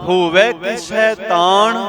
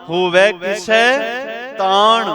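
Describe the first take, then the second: Both takes have the same delivery.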